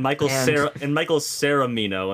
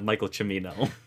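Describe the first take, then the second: First: The surname has an extra syllable added. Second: The surname is said with its usual syllables. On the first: The speaker calls it wrong. "instead of" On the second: The speaker calls it right.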